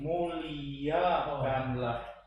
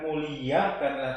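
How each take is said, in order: First: Every vowel and consonant is pronounced clearly. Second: Some sounds are run together or dropped. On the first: The speaker calls it right. "semua huruf dan vokal lalu konsonan kita ucap juga" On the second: The speaker calls it wrong. "bukan muliakanlah"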